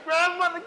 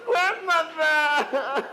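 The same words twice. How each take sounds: First: High, pleading call; desperate plea. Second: Very slow, stretched wail breaking into laughter; drawn-out laughing wail. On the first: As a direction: beg her to stop. Begging grandmother, rising panic. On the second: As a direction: drag the word out, laughing. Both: Acted.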